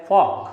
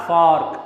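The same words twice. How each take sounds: First: "fork" with the R left out; silent R. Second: "fork" with an audible R before the K; R sounded. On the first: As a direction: say "fork" like "fawk". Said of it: "it will be kept as silent". ("fork" में R silent) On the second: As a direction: pronounce the R in "fork". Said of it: "not fork". ("fork" में R का उच्चारण) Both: Shown as a demonstration.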